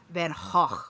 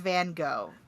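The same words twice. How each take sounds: First: The name is said in its native-language pronunciation. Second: The name is said in the commonly accepted way. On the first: This is the pronunciation from the painter's home country. "actual Austrian pronunciation is Van Gogh" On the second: This is the generally accepted pronunciation. "It is accepted as Van Gogh"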